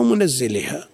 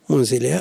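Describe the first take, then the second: First: "منزلها" as munazziliha, doubled z; with doubling. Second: "منزلها" as munziliha, single light z; without doubling. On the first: Teacher asks students about the other reading, "منزلها" with doubled z. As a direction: say "منزلها" with a vowelled nun and a held double z. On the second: Teacher offers students the first reading, "منزلها" without doubling. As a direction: say "منزلها" with sukun on the nun and an undoubled z. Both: Shown as a demonstration. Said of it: "ما تجي بالتشديد؟".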